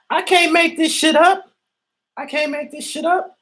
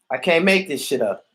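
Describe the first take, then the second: First: Much higher, squeaky disbelief on "I can't make this shit up"; incredulous squeal. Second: Said in the usual way. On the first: Real, not acted. Repeated in disbelief.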